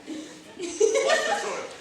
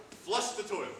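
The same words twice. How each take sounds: First: Flush the toilet, high, slow and loud with a laugh; emphatic repeat. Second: Said in the usual way. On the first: Shown as a demonstration. Host repeating the cue to a confused volunteer, high and loud.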